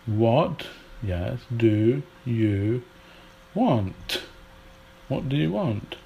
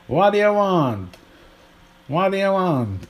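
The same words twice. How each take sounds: First: "What do you want" with each word sounded separately; careful British "want" with a crisp final t; full careful British form. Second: High, run-together American "waddaya want"; elided American English. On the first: Teacher unpacking the American elision, careful full pronunciation. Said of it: "There's more use of elision". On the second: Teacher demonstrating American elision to learners, put-on American accent. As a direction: slur the words together in a mock American accent. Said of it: "There's more use of elision. So in American English".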